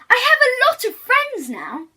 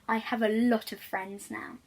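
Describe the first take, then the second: First: It is said very loudly. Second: It is said at normal, softer volume.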